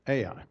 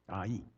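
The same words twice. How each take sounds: First: The name is spelled out letter by letter. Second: The name is said as a single word. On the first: This follows the spelling of the name. "I like to pronounce it Ai because you have to spell it in order to say it" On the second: This is how the locals say it. "we pronounce it Ai"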